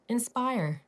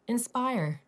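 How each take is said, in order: The two takes are said the same way.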